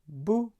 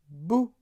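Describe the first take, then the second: Both takes have the same delivery.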